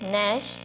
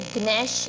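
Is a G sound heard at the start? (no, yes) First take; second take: no; yes. First: The word starts with an n sound. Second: The word starts with a g sound. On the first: The speaker calls it right. "इसका हमें बनाना है नैश" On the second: The speaker calls it wrong. "इसको ग्नैश ग्नोम नहीं बोलेंगे"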